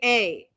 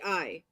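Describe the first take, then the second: First: The vowel sounds like the letter 'A'. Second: The vowel sounds like the word 'eye'. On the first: "Or you say A" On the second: "To say yes, you say I"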